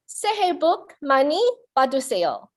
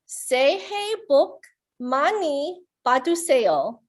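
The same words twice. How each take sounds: First: It is said at a fast pace. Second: It is said at a slower pace.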